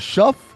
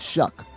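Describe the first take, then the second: First: The name ends with an f sound. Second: The name ends with a k sound. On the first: "is it Shuff" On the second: "You say it Shuck"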